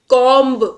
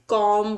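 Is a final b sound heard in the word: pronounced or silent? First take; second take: pronounced; silent. First: The word ends with an audible b sound. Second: The word ends without any b sound. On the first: The speaker calls it wrong. "कॉम्ब नहीं बोलते हैं हम इसे" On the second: The speaker calls it right. "कॉम्ब में जो बी है आपका वो साइलेंट रहेगा"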